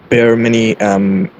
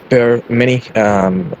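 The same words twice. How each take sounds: The two takes are said the same way.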